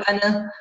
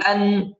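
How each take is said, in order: First: أنا with a stray vowel after the n; mispronunciation demo. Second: أن closing on a held n, no vowel; still N. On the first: Teacher shows the mistake, أنا with an added vowel. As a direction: bounce the ن of أن into "ana". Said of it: "لا نقول أنا". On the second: Teacher models sukun, أن ending in held n. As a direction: rest on the ن of أن. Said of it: "سكون". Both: Shown as a demonstration.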